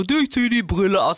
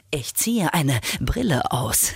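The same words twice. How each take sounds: First: Said in the usual way. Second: Slow, lower, grandly cool; dramatic. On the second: Shown as a demonstration. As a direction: say it like a film hero.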